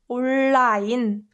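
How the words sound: It is said with Korean sounds, as a loanword. "if you want to sound more like a Korean"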